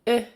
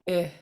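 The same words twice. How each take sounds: First: The vowel is said on a high tone. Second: The vowel is said on a low tone. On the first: "High tone" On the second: "Low short I"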